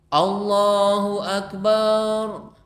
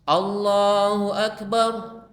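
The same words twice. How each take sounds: First: The vowel in the last syllable is drawn out long. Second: The vowel in the last syllable is kept short. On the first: The word comes to mean something else. The speaker calls it wrong. "bar itu panjang, ada mad tabi'i" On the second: The word keeps its meaning of greatest. The speaker calls it right. "Tidak begitu tapi bar"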